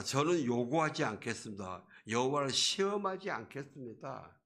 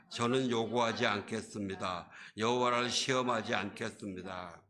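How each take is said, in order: First: Livelier acted declaration; seemingly pious refusal. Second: Scripture read aloud. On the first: Preacher as stubborn Ahaz refusing God's sign, sounding devout. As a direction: refuse with a show of piety. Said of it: "굉장히 경건한 소리 같아요". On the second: Real, not acted. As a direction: read the verse out evenly. Reads the verse aloud.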